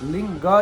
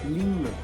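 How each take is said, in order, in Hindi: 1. शब्द के अंत में जोड़ा गया 'a' स्वर है। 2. शब्द व्यंजन पर ही खत्म होता है, कोई अंतिम स्वर नहीं। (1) "हम लोग काफी लोग गलत उच्चारण करते हैं" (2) "लिंग न शब्द है"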